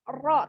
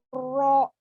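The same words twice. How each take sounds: First: The r is said without rounding the lips. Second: The r is said with pushed-out, rounded lips. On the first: The speaker calls it right. "tapi ro ro ro. Tebalkannya itu di mana? Di dalam" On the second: The speaker calls it wrong. "tidak monyong ininya, e, bibirnya tidak ro"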